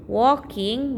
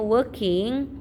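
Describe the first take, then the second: First: "walking" as wor-king, clear o vowel; spelling pronunciation. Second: "walking" as wer-king, the word working; correct reading. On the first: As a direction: read "walking" as written working, with an o. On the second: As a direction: central er vowel in "walking". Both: Shown as a demonstration. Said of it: "bacanya walking".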